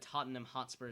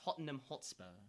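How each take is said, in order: First: It is said in an American accent. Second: It is said in a British accent.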